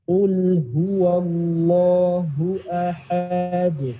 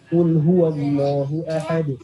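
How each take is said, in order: First: It is recited very slowly. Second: It is recited quickly. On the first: "kita harus bisa baca secara pelan-pelan banget" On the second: "baru cepat"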